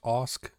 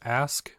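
First: The vowel is an 'o' sound. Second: The vowel is an 'a' as in 'ask'. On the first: "but pronounced Osk is how I've always pronounced it" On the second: "Spelled the same way as ask"

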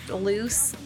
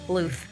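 First: The name ends with an s sound. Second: The name ends with a th sound. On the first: The speaker calls it wrong. "Not loose" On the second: The speaker calls it right.

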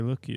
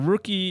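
First: The word begins with an L sound. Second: The word begins with an R sound. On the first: The speaker calls it wrong. "But they say looky" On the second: The speaker calls it right. "rookie is with an R"

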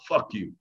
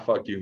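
First: It is said in a hostile, serious tone. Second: It is said in a laughing, friendly tone. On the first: It is meant as an insult. "with an aggressive tone, and I look serious" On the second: It is meant as a lighthearted joke. "and I smile, it's taken very lightheartedly"

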